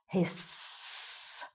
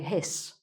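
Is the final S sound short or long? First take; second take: long; short. First: The final S sound is drawn out long. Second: The final S sound is short. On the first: "if you're going to imitate the thing" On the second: "normally you just say hiss, make a short S sound"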